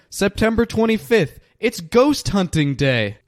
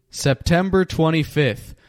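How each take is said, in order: First: Date blurted out much higher with glee; excited. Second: Said in the usual way. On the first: Real, not acted. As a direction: burst out with the date, thrilled. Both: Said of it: "how excited I was about today".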